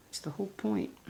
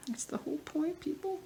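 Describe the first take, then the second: First: Said in the usual way. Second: Pitched way up in mock exasperation; playful high-pitched scolding of viewers; mock exasperated. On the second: Real, not acted. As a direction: tease the audience with a high, put-upon voice.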